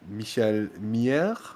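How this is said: The name is pronounced with French sounds.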